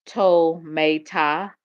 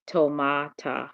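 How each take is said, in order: First: Tometa in slow, drawn-out syllables, toh-MAY-tah; sounded-out pronunciation. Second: Tomata drawn out slowly, toh-MAH-tah; alternative pronunciation. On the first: Streamer checking a word's pronunciation, Tometa slowly sounded out toh-MAY-tah. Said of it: "go back and look at the pronunciation". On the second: Streamer trying to copy how she said it, Tomata slowly as toh-MAH-tah. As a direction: sound out Tomata with a long open MAH. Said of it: "That's not how she said it". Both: Shown as a demonstration.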